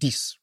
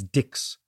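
First: It is said the French way, ending in s. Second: It is said as spelled, ending in ks. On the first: "whereas the French pronounced it Dix" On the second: "the English speakers looked at Dix and pronounced it phonetically as Dix"

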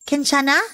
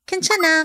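First: The pitch rises at the end. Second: The pitch falls at the end. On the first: The speaker asks with concern if someone is okay. "a word of compassion when asked this way" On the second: The speaker says they are fine. "when you want to say that you're fine. Like this"

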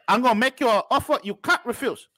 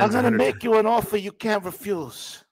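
First: It is said in a put-on Chinese accent. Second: It is said without a put-on Chinese accent.

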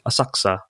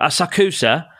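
First: The middle u sound is dropped, almost silent. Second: The middle u sound is clearly pronounced. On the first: The speaker calls it right. "it's kind of silent" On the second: The speaker calls it wrong. "So you wouldn't be like"

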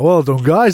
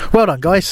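First: It is said in a Yorkshire accent. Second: It is said in a Southern English accent. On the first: The praise sounds stronger and happier. The speaker calls it right. "So much better in Leeds" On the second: The praise sounds weaker. The speaker calls it wrong. "I am hamstrung by my southern accent"

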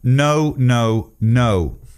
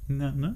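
First: It sounds serious and firm. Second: It sounds playful and teasing.

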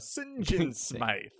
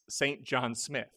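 First: The surname is pronounced in an odd, unusual way. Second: The surname is pronounced in the ordinary way. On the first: "why is he saying it so weird?" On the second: "I was watching the subtitles and it's"

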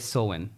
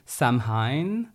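First: The word is given its native Irish pronunciation. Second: The word is given an anglicized pronunciation. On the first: This is how the native speakers say it. "but they say Samhain" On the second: This is how an outsider would guess it. "I would say Samhain"

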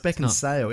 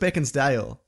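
First: No d sound comes before the last syllable. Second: A d sound comes before the last syllable. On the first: The speaker calls it right. "it's Beckinsale" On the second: The speaker calls it wrong. "I always thought it was Beckinsdale"

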